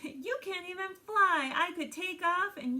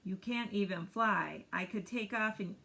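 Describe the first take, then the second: First: It is said in Brakebill the gosling's voice. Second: It is said in Roz the robot's voice.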